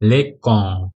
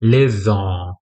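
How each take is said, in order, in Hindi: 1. बीच का व्यंजन एक कठोर k की आवाज़ है। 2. बीच का व्यंजन एक नरम s की आवाज़ है। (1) "अगर सेडिला नहीं होता तो क्या प्रोनाउंस करते" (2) "लेकिन हमें क्या बोलना है"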